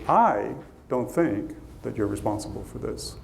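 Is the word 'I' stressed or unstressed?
stressed. The word I carries strong stress.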